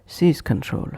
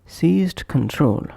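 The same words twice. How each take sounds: First: "seize control" with the d of seized left out; linked, d dropped. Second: "Seized control" with the d sounded; full form. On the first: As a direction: run z straight into c in "seize control". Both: Shown as a demonstration. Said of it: "is pronounced as".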